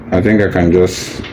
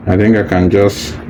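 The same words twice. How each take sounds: The two takes are said the same way.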